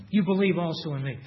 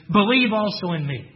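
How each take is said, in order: First: Said in the usual way. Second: "Believe" pushed out louder as an order; as a command. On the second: Shown as a demonstration. Preacher showing the congregation the verse read as a command, louder and firm. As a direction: give "Believe also in me" as a firm imperative, "Believe" stressed and falling. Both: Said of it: "It's a command".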